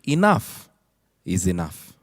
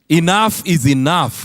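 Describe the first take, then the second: First: The phrase is said in a calm tone. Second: The phrase is said in an angry tone. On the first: The speaker is content with having enough. "change the tone" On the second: The speaker is fed up and wants something to stop. "many times we say that in anger"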